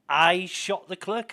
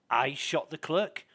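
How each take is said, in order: First: Higher, much louder outraged I; shocked disbelief. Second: Slow, puzzled repeat of the question. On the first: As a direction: blurt it out, stunned and slow. Suspect repeats it, shocked. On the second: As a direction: ask it slowly, not yet believing it. Suspect repeats accusation, puzzled. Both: Retold or imitated.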